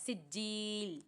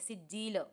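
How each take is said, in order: First: The final l ends plainly without bounce. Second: The final l has an echoing bounce. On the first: The speaker calls it right. "लाम पे कलकला बिल्कुल भी नहीं करेंगे" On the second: The speaker calls it wrong. "ऐसे नहीं पढ़ना है"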